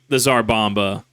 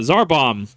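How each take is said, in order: First: The name ends with a final vowel sound. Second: The name ends without a final vowel sound. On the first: It follows the pronunciation used in its home country. "I'm saying it that way because of uh, pronunciation uh, over there" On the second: It is an anglicized form of the name. "I'm going to use the Englishization here"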